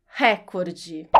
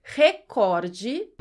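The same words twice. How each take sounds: First: "recorde" as "RÉ-cor-de", open e; first-syllable stress. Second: "recorde" as "re-COR-de"; second-syllable stress. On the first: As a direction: hit RÉ in "recorde". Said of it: "Se a pronúncia fosse recorde". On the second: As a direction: hit COR in "recorde", questioning. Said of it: "como você pronuncia?". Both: Shown as a demonstration.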